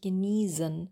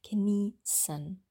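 First: The middle s sound is a voiced buzz. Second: The middle s sound is a voiceless hiss. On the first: The speaker calls it wrong. "Wir sagen nicht genießen" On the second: The speaker calls it right. "sondern genießen"

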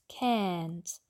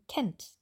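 First: The vowel is drawn out long. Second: The vowel is short and quick. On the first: The speaker calls it wrong. "wir wollen nicht kennt" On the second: The speaker calls it right. "Ganz schnell ausgesprochen das Ä"

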